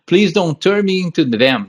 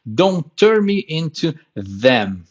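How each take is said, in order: First: "them" slips toward "dem", the th not quite placed; slow line with a fumbled th in "them"; stumbled pronunciation. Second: Very slow, "them" with a clear voiced th, tongue between teeth; slow teacher demo, clean th in "them"; careful correct pronunciation. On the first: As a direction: trip a little over "them" in "into them". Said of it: "hoje tá difícil de pronunciar". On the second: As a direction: spell out "Don't turn me into them" slowly and cleanly. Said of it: "a pronúncia mais corretinha". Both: Shown as a demonstration.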